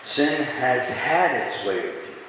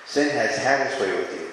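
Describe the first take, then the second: First: "Sin has had its way with you" read slowly, leaning hard on "had"; a slow, pointed scripture reading with "had" stressed; slow emphatic reading. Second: Said in the usual way. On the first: Shown as a demonstration. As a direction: read it out deliberately, weighting "had". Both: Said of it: "I want to read this sentence one more time".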